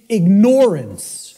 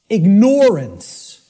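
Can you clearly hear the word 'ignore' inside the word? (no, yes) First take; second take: yes; yes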